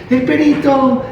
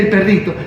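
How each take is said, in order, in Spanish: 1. Se dice de forma infantil, como hablan los bebés. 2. Se dice con pronunciación normal de adulto. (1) "los papitos tienen la costumbre de decirle eh, el perito" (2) "decirle el perrito"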